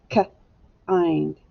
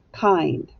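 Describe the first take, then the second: First: "K-ind" split into a short k, then ind; teacher segmenting "K-ind" into k and a glued ind; sounded out. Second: Said in the usual way. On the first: Shown as a demonstration. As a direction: sound out "K-ind" in two parts, pausing after the k. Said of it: "that is a glued sound". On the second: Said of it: "Echo me".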